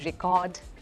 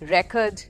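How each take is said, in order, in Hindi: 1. ज़ोर दूसरे अक्षर पर है। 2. ज़ोर पहले अक्षर पर है। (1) "जब ये वर्ब बन जाता है तो हम बोलते हैं" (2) "जब ये नाउन है तो हम बोलेंगे"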